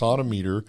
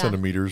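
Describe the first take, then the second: First: The first syllable is pronounced the French way. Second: The first syllable is pronounced the English way. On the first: This is the Southern pronunciation. "a French oid kind of pronunciation" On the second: This is the local Utah pronunciation. "that's still how we pronounce it here in Utah"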